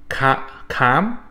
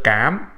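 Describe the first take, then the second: First: "cám" with a soft English c, mouth spread, harsh; wrong soft c. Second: "cám" with a hard Vietnamese c; correct hard c. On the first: Teacher shows the learner's mispronunciation of "cám". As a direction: imitate how English speakers say "cám". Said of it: "say this with a soft C sound". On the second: Teacher gives the right "cám" after the wrong one. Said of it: "instead of". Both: Shown as a demonstration.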